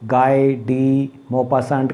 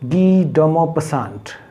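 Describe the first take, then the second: First: The first name sounds like 'guy', with 'dee'. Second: The first name sounds like 'gee', with 'do'. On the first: The speaker calls it wrong. "इस नाम को बहुत गलत बोलते हैं, गाय डी मोपासंट कह देते हैं" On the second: The speaker calls it right. "No, it is गी डोमोपसंट"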